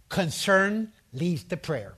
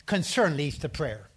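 First: CONCERN stressed, slow and deliberate; slow emphatic repeat. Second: Said in the usual way. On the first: Shown as a demonstration. Preacher drilling a key point, slow emphatic stress. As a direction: hammer home Concern, slowly.

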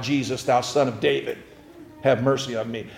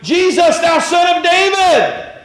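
First: A soft, low echo of the plea; beggar's cry retold quietly; quiet retelling of the cry. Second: High loud shout for mercy; crying out. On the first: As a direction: say the cry softly to yourself. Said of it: "He cried out". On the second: Acted. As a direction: yell it across the crowd. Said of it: "and he's like".

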